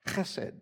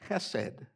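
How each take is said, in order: First: It begins with a harsh sound deep in the throat. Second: It begins with a soft, light h sound.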